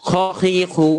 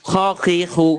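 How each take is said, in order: No difference in how they are said.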